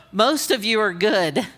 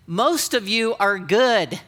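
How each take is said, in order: First: Said in the usual way. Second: "Most of you are good" stretched out slowly, each word placed; slow, pointed delivery. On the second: Shown as a demonstration. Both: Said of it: "Listen to me talk".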